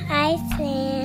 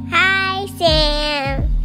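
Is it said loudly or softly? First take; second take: softly; loudly. First: It is said at a normal, softer volume. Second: It is said more loudly.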